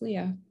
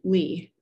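First: The name is said as two syllables. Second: The name is said as one syllable. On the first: The speaker calls it right. "It's Leah" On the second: The speaker calls it wrong. "they pronounced my name wrong"

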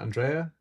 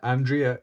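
First: The name is said with a non-English pronunciation. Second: The name is said with an English pronunciation.

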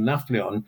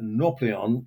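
First: The name has an 'f' sound before the 'p'. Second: The name has an 'au' vowel and no 'f' sound. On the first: This is how the name is said in modern Greek. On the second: This is the older form of the name.

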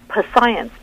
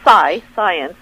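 First: The word starts with a sounded p before s. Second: The word starts with an s sound, no p. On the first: The speaker calls it wrong. "oh my gosh, p-science, that was the flack" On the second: The speaker calls it right. "it's just, you know, science"

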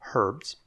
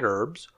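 First: It is said in an English way, h pronounced. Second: It is said in an American way, h silent.

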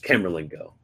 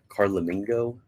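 First: The second syllable sounds like 'mer'. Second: The second syllable sounds like 'la'. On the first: The speaker calls it right. "It's Camerlingo" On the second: The speaker calls it wrong. "How do you pronounce that?"

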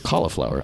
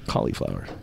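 First: The middle vowel is short and reduced. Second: The middle vowel is a clear 'ee' sound. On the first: "some people say cauliflower" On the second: "I say a hard E"

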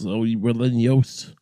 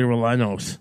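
First: The double L sounds like a Y. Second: The double L sounds like an English L. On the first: The speaker is attempting the Spanish pronunciation. The speaker calls it right. "I think the Latin languages tend to make that OS like, yos" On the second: The speaker is mocking a careless anglicized pronunciation. The speaker calls it wrong. "I'm not some turd going, give me chile rellenos"

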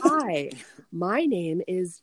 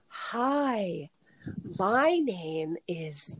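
First: The phrase is spoken somewhat slowly. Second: The phrase is spoken very slowly. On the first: The speaker calls it wrong. "read it slower" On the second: The speaker calls it right. "she was only happy until I was literally reading it like"

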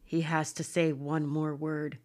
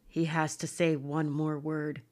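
First: It is said in a put-on deep voice. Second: The same.

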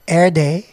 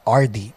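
First: Every vowel in the name becomes 'eh'. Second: The name's vowels are pronounced plainly. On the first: "lahat ng vowel mo gawin mong E" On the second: "your name is not RD"

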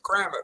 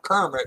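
First: It sounds like the phrase cram it. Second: It sounds like the usual name Kermit. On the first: The name comes from cramming food in. The speaker calls it right. "he'd just cram it all in there" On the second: It is the familiar frog's name. The speaker calls it wrong. "It's not Kermit"

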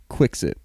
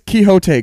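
First: The name is said in a British way. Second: The name is said in an American way. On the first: The speaker calls it wrong. "British people pronounce Quixote... They pronounce it Quixit" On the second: The speaker calls it right. "But it's Quixote... That might be the American pronunciation"

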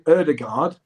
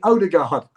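First: The name is said the way the player says it. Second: The name is said in the English way. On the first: This is how the player pronounces his own name. "my name is Martin Ødegaard" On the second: This is the accepted English version of the name. "in England, I don't mind if you call me Ødegaard"

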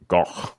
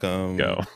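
First: The name has a guttural throat sound. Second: The name ends in a plain vowel. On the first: "like there's like a guttural sound or something" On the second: "So just say, or like, "go,""

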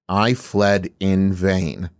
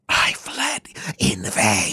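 First: It is said in a normal reading voice. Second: It is said in a whisper.

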